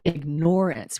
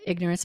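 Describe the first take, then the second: First: The stress is on the second syllable. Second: The stress is on the first syllable. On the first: People are actively ignoring reality. "putting an emphasis on ignorance" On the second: It simply means not knowing. "we call it ignorance"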